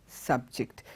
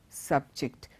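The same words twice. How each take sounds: The two takes are said the same way.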